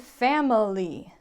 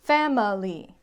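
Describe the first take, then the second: No difference in how they are said.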